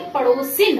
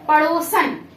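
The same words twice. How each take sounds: First: "पड़ोसिन" ending in -sin; correct ending. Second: "पड़ोसन" ending in -san; wrong ending. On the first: Teacher corrects students, "पड़ोसिन" with -sin. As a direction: say "पड़ोसिन" with a clear i before the n. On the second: Teacher shows students the wrong word, "पड़ोसन" with -san. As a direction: say "पड़ोसन" with a short a before the final n. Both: Shown as a demonstration. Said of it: "पड़ोसन नहीं".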